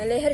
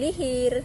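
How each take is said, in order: First: The vowels are e sounds. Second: The vowels are i sounds.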